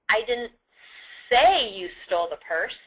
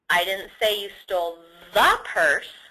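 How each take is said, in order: First: The stress is on "say". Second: The stress is on "purse".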